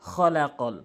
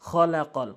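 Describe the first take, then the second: Both takes have the same delivery.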